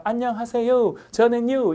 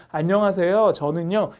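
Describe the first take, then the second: First: Higher-pitched, swooping American intonation on Korean; American-accented Korean. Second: Said in the usual way. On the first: Retold or imitated. Teacher imitating foreigners introducing themselves, American accent. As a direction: greet in Korean with heavy American stress. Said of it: "미국식으로 막". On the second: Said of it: "이렇게 안 하고 그냥".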